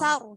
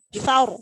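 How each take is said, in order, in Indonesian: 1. Bunyi s-nya tipis dan ringan. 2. Bunyi s-nya tebal dan berat. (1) "kadang sar, sar gitu. Padahal sa bukan sin" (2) "Yang benar itu berarti sar"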